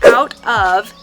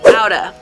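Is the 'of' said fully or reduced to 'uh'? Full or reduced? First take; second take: full; reduced. First: Both words are said fully and separately. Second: The words blend, with 'of' reduced to 'uh'. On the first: "Out of turns into" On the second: "turns into outa"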